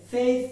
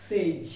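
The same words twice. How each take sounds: First: সেইজ as the everyday Bengali form of "says"; common mispronunciation. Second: সেইজ as the careful model of "says"; corrected pronunciation. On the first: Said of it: "আমরা এটাকে সেইজ বলে থাকি". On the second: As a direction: draw out the buzzing end of সেইজ. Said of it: "কিন্তু উচ্চারণটি হবে". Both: Shown as a demonstration.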